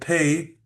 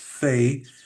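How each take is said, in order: First: The word begins with a P sound. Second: The word begins with an F sound. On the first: The letter has a dagesh. "pei with a dagesh, which is a P sound" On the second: The letter has no dagesh. "Without a dagesh, it's an F sound"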